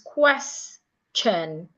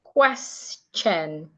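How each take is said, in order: The two takes are said the same way.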